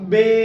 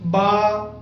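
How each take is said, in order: First: It is said with an Urdu pronunciation. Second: It is said with an Arabic pronunciation. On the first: The speaker calls it wrong. "Avoiding Urdu pronunciation. For example don't pronounce them at all as" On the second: The speaker calls it right. "pronounce them in following way, just like"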